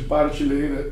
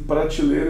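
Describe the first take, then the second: First: The word starts with the syllable 'par'. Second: The word starts with the cluster 'pra'. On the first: "em vez de partilheira" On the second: "como se diz em prateleira"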